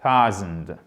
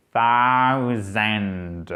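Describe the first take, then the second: First: THOUSAND bref, grave, ton descendant; version courte. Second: THOUSAND très étiré, D final bien détaché; version longue décomposée. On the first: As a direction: dis thousand court, d'un seul élan. (thousand condensé, sans étirer les sons) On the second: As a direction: allonge chaque son de thousand jusqu'au D. (thousand au ralenti, voix grave) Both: Shown as a demonstration. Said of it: "Je vous le fais court".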